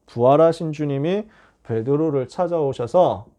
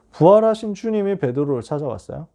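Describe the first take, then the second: First: Slow, weighty 부활하신, each word laid down deliberately; slow emphatic. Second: Said in the usual way. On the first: Shown as a demonstration. Preacher stressing the risen Lord to the congregation, slow and weighty. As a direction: lean on 부활하신 and draw the line out slowly.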